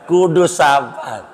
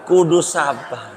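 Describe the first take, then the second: No difference in how they are said.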